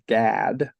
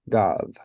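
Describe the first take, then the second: First: The vowel is an English-style A sound. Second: The vowel is an open 'ah' sound. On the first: "in English, we would pronounce this as Gad with a kind of a long A sound" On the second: "but in in Hebrew, it's God"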